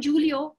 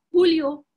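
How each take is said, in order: First: "Julio" said JOO-lio, with a dʒ sound; wrong English J. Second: "Julio" said HOO-lio. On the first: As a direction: start "Julio" like English "June". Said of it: "it's not Julio". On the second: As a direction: breathe an h at the start of "Julio". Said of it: "It's pronounced like an H". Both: Shown as a demonstration.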